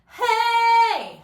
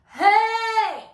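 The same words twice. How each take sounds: First: It is said in a forward head voice. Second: It is said in a full chest voice. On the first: "Head voice" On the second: "Chest voice"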